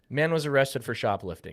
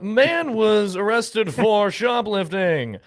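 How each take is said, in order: First: It is said in an ordinary conversational voice. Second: It is said in a put-on newsreader voice. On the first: The speaker calls it right. "Can we just say" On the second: The speaker calls it wrong. "why do we talk like that?"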